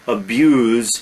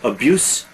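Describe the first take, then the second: First: It is pronounced as the verb form. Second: It is pronounced as the noun form. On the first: It names the act of harming someone. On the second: It names harm done to someone.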